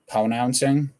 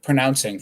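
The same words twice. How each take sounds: First: The R sound is left out. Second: The R sound is pronounced clearly. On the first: The speaker calls it wrong. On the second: The speaker calls it right.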